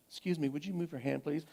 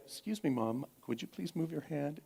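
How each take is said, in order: First: Quick, softer, tightly polite request; clipped hushed courtesy; quoting daughter's tense politeness. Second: Much softer, carefully polite request; soft, deliberate courtesy; quoting daughter's clear politeness. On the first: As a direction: imitate the daughter forcing politeness through anger. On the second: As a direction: imitate a daughter calmly asking mom. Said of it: "that moment of clarity". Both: Retold or imitated.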